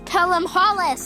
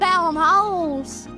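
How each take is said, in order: First: The surname is said with two syllables. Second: The surname is said with one syllable. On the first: The speaker calls it right. "Apparently we're supposed to pronounce Newcastle's name as" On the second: The speaker calls it wrong.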